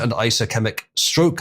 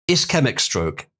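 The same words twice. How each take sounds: First: Ischemic said as eye-suh-KEM-ick; mispronounced ischemic. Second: Said in the usual way. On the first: Shown as a demonstration. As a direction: stumble over ischemic with an eye sound up front. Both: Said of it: "isomet-, uh".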